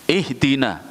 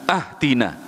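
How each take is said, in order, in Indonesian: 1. Kata ini dimulai dengan bunyi 'ih'. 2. Kata ini dimulai dengan bunyi 'ah'. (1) "Hamzanya ih" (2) "Nggak bisa kecuali ah. Ya udah sholat sendiri"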